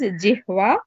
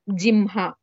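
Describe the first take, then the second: First: The middle cluster sounds like h then v. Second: The middle cluster sounds like m then h. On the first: "both correct" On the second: "both correct"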